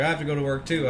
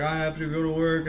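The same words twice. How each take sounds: First: Said in the usual way. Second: Imitated weepy wail, pitched up; mock tearful whine. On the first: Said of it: "And I was like". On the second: Driver in tears after the crash, mock weepy whine. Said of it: "she was in tears".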